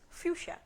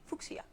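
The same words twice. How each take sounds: First: The word is said in its standard pronunciation. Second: The word is said in a personal nonstandard pronunciation. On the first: The speaker calls it right. "But it's fuchsia" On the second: The speaker calls it wrong. "I always say it wrong. I say fuchsia"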